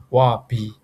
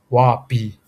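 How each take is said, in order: First: "Wa bi" said clearly, Burmese tones; Burmese model phrase. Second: "wa bi" repeated a bit louder; repeat for students. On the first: Teacher models saying I'm full. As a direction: model "Wa bi" for learners. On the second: Teacher repeats I'm full for learners. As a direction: say "wa bi" again, firmly. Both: Shown as a demonstration. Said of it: "We can say".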